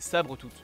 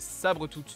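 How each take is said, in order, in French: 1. Le nom est prononcé de manière grossière, déformée. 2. Le nom est prononcé de manière standard. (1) "de la manière la plus euh, dégueulasse possible" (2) "le nom du personnage c'est Sabretooth normalement"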